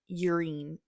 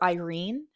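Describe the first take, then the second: First: The name starts with a clear 'y' sound. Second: The name starts without a 'y' sound. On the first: "like really pronouncing the Y" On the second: "I would call her Irene"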